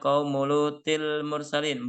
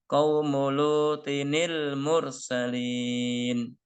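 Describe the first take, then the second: First: It runs straight into 'l' with no added 'ni'. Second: An extra 'ni' syllable is added before 'l'. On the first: The speaker calls it wrong. "Ini tidak dibaca qaumulutil mursalin, bukan" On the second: The speaker calls it right. "dibaca qaumulutinil. Nah, ada tambahan nun kasroh"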